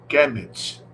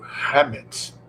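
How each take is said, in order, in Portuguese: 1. Começa com um som de k duro. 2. Começa com um som de h gutural e áspero. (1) "o termo Kemet, ou melhor dizendo" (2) "C H... K H, juntos tem som de R R"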